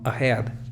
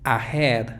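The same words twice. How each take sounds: First: The first vowel is a short, weak schwa. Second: The first vowel is a full, clear vowel. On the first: The speaker calls it right. "sino ahead... al inicio hay una schwa" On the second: The speaker calls it wrong. "No es ahead"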